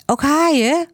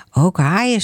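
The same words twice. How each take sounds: First: Put-on high child's voice, rising question on "haaien"; curious child. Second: Said in the usual way. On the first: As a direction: ask "Ook haaien?" like an eager small boy, high. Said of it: "vroeg Laurens". (hoge kinderstem, vragend "haaien") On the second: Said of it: "zegt de juf".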